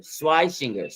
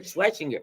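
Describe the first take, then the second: First: Schweisinger with the long "eye" sound, SWY-singer; corrected pronunciation. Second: Schwesinger said as "SWESH-inger", short e and no ei; a fumbled try at Schwesinger, shwesh sound; stumbling pronunciation. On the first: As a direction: settle on Schweisinger as SWY-shing-er. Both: Real, not acted. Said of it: "I can't even pronounce his name".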